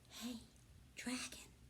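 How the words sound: It is whispered very softly.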